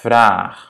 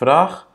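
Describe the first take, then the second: First: The vowel is long. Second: The vowel is short. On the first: The speaker calls it right. "on veut garder ce A long" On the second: The speaker calls it wrong. "C'est pas vraag"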